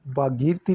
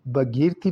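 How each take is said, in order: First: भागीरथी as "bhaa-geer-thee"; long first vowel in भागीरथी; correct pronunciation. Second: भगीरथी as "bha-geer-thee"; short first vowel in भगीरथी; wrong pronunciation. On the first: Teacher repeating the correction, भागीरथी with long aa. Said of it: "लिखा जाएगा". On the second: Teacher repeating the error, भगीरथी with short a. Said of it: "नहीं होगा". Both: Shown as a demonstration.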